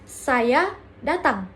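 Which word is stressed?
datang. The second word carries the stress. The focus is on the action of coming. "Fokus pada tindakan"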